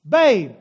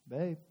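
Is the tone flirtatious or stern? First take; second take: stern; flirtatious. First: It is said in a stern, reproachful tone. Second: It is said in a flirtatious, inviting tone. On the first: A duty has been neglected and is expected now. "That means that, Scott, you are on the clock" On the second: Romance may be on offer tonight. "That means I might get lucky tonight"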